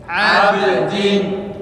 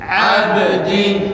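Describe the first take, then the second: Both takes have the same delivery.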